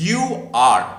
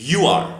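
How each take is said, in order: First: Said in the usual way. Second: "you are" run together as "you're", higher and louder; short form of "you are". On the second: Shown as a demonstration. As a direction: contract "you are" into one beat, you're. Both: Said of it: "এর short form হচ্ছে".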